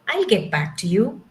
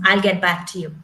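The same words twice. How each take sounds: First: The tone sounds warm and pleasant. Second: The tone sounds cold and distant. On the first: The speaker is friendly and willing to follow up. "it can convey the message very nicely" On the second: The speaker is dismissive and unfriendly. "It can also be very cold"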